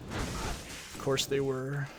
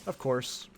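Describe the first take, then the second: First: Sarcastic drawl. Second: Said in the usual way. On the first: Real, not acted.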